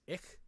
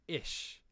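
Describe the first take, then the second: First: The final consonant is hard and harsh. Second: The final consonant is soft, like 'sh'. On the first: "a northern German accent would say the word I ... with a much harder emphasis on the consonants" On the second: "a southern German accent would say ish ... more like I S H rather than a hard consonant"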